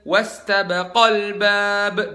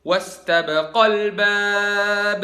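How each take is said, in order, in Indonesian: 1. Vokal panjang sebelum 'al' ditekankan. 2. Vokal panjang sebelum 'al' ditekankan.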